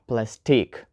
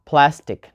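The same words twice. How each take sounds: First: Plastique, weak first syllable and long stressed TEEK; lower, softer "plastique" stressed on its last syllable; wrong second-syllable stress. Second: PLAStic, first syllable strong, second short and weak; "plastic" with the beat up front; stress on first syllable. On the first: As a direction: say plasTIQUE with the weight on the end. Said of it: "not plastique". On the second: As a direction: hit PLAS in "plastic", let -tic drop. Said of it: "put the stress on the first one". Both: Shown as a demonstration.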